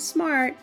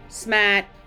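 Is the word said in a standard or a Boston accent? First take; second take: standard; Boston. First: It is said in a standard accent. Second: It is said in a Boston accent.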